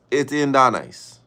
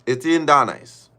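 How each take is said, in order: Both takes have the same delivery.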